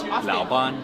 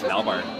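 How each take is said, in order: First: The second syllable ends with an n sound. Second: The second syllable ends with an r sound. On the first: "standard Chinese is Laoban" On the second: "In Chongqinghua, it's Laobar"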